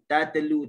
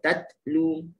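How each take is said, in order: First: The t is released with a bouncing echo. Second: The t is released with breath and slight voice. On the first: The speaker calls it wrong. "Tak boleh baca ada lantunan" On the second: The speaker calls it right. "angin dan sedikit suara"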